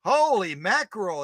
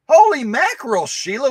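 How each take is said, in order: First: Said in the usual way. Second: Much higher and louder, amazed; amazed exclamation. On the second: Real, not acted. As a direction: burst out in amazement. Amazed at Sheila's animals.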